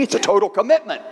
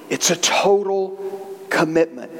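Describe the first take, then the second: First: Quick punchline delivery; protesting pig. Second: Solemn restatement. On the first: Acted. Pig objecting to chicken's breakfast plan, quick protest. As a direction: toss it out fast as the joke's payoff. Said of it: "the little pig looks at the chicken". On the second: Real, not acted. Preacher turning joke into point for friends, solemn. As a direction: break it up and let it land gravely.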